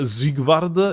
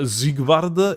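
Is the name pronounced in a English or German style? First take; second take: German; German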